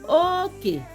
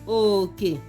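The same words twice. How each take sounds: First: The first syllable is high, the second low. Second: Both syllables are said on a low tone. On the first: It means boundary. "This second one has high and a low tone" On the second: It means share or portion. "It is low low tone"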